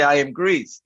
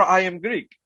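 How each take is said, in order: First: "Greece" ending in an s sound; intended pronunciation. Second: "Greek" ending in a k sound, pitched high; misleading pronunciation. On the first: Explaining what the stranger meant, "Greece" with an s ending. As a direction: finish "Greece" on a clear s, slightly raised. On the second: Stranger attempting his username, high "Greek" with a k ending. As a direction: say "Greek" with a final k, imitating the stranger. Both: Retold or imitated. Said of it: "he's trying to say".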